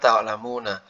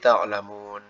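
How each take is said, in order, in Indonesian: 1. Kata ini diakhiri dengan bunyi vokal. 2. Kata ini diakhiri konsonan, vokalnya dihilangkan. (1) "Aslinya kan ta'lamuna" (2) "Karena wakaf jadi ta'lamun"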